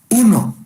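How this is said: The word is spoken with full voice. The chest transmits voiced speech clearly. "pectoriloquia sonora"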